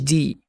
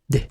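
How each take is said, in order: First: The consonant is followed by an 'ee' vowel. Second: The consonant is said alone with no vowel. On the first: The speaker calls it wrong. "مش دي على كسر" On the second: The speaker calls it right. "دال وعلى سكون"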